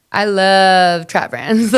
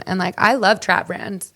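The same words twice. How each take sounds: First: "I love trap brands" slow and louder, brands rising; stress on brands. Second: Said in the usual way. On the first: Real, not acted. Repeats the line for emphasis.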